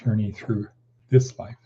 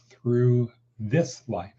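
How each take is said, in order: First: "this" lightly stressed after a short pause; pause, then press on "this"; gentle emphasis on the word "this". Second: Slow phrase leaning on "this"; "this" set apart and weighted; stress on THIS. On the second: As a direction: draw out "this" with clear emphasis. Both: Shown as a demonstration. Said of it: "Emphasis on the word this".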